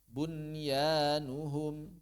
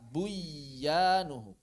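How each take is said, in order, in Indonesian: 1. Bunyi n dibaca jelas sebelum bunyi y. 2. Bunyi n menyatu dengan bunyi y yang dobel.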